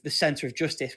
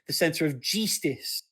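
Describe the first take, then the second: First: The words are said with their usual vowels. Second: The vowels are swapped for a y-like sound. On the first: This is the real word. "we don't operate out of the center of justice" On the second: This is the game's spelling. "replacing letters with the letter Y"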